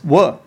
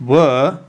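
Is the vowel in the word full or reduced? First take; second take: reduced; full. First: The vowel is a short weak schwa. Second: The vowel is full and strong. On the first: The speaker calls it right. "it's pronounced as were. ... It's much shorter, much snappier" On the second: The speaker calls it wrong. "we don't actually pronounce it were"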